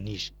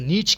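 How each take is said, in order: First: The word ends with an 'sh' sound. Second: The word ends with a 'ch' sound. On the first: The speaker calls it right. "शीन से आता है नीश" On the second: The speaker calls it wrong. "कुछ लोग इसको नीच कहते हैं"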